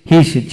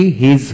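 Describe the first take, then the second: First: হিস ending in an unvoiced s; double-s pronunciation. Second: হিজ ending in a voiced z/j; single-s pronunciation. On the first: Teacher showing learners the double-s rule, হিস with a hissed ending. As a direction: end হিস on a hiss, not a z. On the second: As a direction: end হিজ on a buzz, not a hiss. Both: Shown as a demonstration. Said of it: "যদি S না থাকতো তাহলে কি হিজ হতো".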